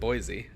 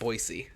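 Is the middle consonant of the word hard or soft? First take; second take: soft; hard. First: The middle consonant is a soft sound, not S. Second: The middle consonant is a hard S sound. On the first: This is how people from outside the area say it. "They pronounce it Boise outside of the city" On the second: This is how people from the city say it. "you call it Boise with a hard S"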